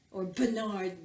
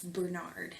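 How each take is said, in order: First: Bernard said with a fresh stress; correcting how Bernard is said; corrected name. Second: Said in the usual way. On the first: Shown as a demonstration. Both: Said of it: "maybe I should say".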